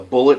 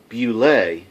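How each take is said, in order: First: The word sounds like 'bullet'. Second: The word ends with an 'ay' sound. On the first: The speaker calls it wrong. "not a bullet" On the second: The speaker calls it right. "I believe it's pronounced properly pronounced"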